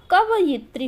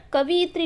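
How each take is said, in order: First: कवयित्री said ka-va-yit-ri, each syllable clear; correct pronunciation. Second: कवियत्री said ka-vi-yat-ri, with vi before ya; mistaken pronunciation. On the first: Teacher giving the exam's right form, correct pronunciation. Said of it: "वह कवयित्री होता है". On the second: Teacher quoting the wrong form for exam students, mistaken pronunciation. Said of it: "कवियत्री नहीं होता". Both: Shown as a demonstration.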